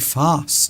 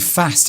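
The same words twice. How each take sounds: First: Fast is said with a posh vowel. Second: Fast is said with a regional vowel. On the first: The speaker calls it right. "I brought you up to say fast" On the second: The speaker calls it wrong. "Don't say fast"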